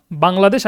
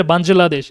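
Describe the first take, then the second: First: বাংলাদেশ with a hard g; hard-g pronunciation. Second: বাঞ্জলাদেশ with a j sound; j-sound pronunciation. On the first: Teacher quizzing students on two pronunciations, hard-g version. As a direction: say বাংলাদেশ with g, no j sound. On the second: Teacher quizzing students on two pronunciations, j version. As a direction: say বাঞ্জলাদেশ with j replacing g. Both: Shown as a demonstration. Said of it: "দুইটার উচ্চারণ কি হবে".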